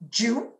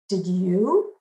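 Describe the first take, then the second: First: It is said quickly, merged into one syllable. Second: It is said fully as two separate syllables. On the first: "in my dialect, that's also two syllables" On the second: "the answer to this question in standard English is no. Did you?"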